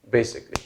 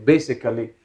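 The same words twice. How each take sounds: First: The middle 'a' vowel is silent. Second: The middle 'a' vowel is pronounced fully. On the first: The speaker calls it right. "A is silent over here" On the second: The speaker calls it wrong. "pronouncing it this way"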